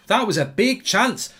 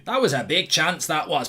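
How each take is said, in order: First: Slow, slightly higher cartoon dog voice; a quick, light Scooby-Doo impression. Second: Put-on lightly done Scottish accent; a hint of a Glaswegian comic's Scottish accent; understated Scottish accent impression; Billy Connolly. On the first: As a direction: drag the words out like Scooby-Doo. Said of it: "Scooby-Doo". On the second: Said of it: "Billy Connolly".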